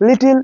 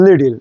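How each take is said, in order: First: Said in the usual way. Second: লিটল with the T tapped like D, liddle; flapped T. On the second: Shown as a demonstration. Teacher modelling the flap in লিটল. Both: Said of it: "এটা".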